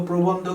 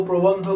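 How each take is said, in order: No difference in how they are said.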